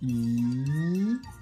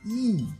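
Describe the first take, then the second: First: It is said with the second Mandarin tone. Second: It is said with the fourth Mandarin tone.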